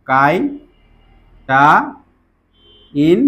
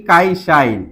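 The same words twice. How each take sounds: First: কাই shine split into কাই, শা, ইন with long pauses; syllable by syllable. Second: Said in the usual way. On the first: Shown as a demonstration. Teacher spelling out a word for students, syllable by syllable. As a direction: break কাই shine apart slowly for learners.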